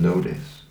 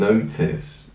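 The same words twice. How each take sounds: First: It is said in a North American accent. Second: It is said in a British accent. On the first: "Rather than notice" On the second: "you're forced to even put the O in notice"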